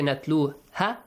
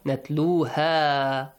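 First: The vowel is said short, not stretched. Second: The vowel is stretched out long. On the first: The speaker calls it wrong. "If you say natluha, it's again wrong" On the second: The speaker calls it right. "Stretch the sound"

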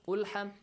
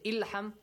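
First: The word begins with a u vowel. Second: The word begins with an i vowel. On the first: "you don't say" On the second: "you don't say ilham"

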